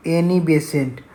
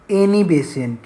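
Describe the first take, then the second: No difference in how they are said.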